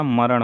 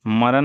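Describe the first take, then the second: First: मरण ending in retroflex "ṇ"; retroflex final ṇ. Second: मरण ending in plain dental "n"; dental final n. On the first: Teacher giving the correct form, मरण with retroflex ṇ. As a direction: curl the tongue back on the end of मरण. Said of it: "मरण होता है". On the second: Teacher showing the wrong form, मरण with dental n. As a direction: say मरण as "maran", no retroflex. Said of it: "नहीं होता". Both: Shown as a demonstration.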